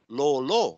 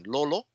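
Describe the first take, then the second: First: Both vowels are held long. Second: Both vowels are said short. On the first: It means brainless. "that's kind of like brainless" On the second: It means brain. "That means brain"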